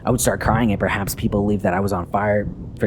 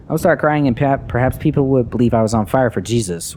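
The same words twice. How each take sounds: First: Said in the usual way. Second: Higher, louder restart of the line; insistent repeat. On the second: Acted. Repeating the confession to Father after being interrupted, insistently raised voice. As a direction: push on over the interruption, raised voice.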